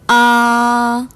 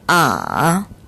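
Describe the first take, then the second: First: The pitch stays high, long and flat. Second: The pitch dips very low, then rises slightly. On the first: "높고 길고 평평하게 발음하는 일 성" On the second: "가장 낮은 음까지 내려갔다가 살짝 올려주는 복잡한 성조 제삼 성"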